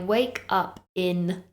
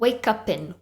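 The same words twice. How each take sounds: First: The words are said separately, without linking. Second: The words are linked into one word. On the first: The speaker calls it wrong. "that doesn't sound very natural" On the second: The speaker calls it right. "It almost sounds like one word"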